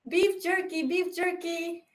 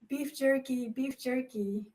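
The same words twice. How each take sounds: First: It is said very loudly. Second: It is said quietly and shyly.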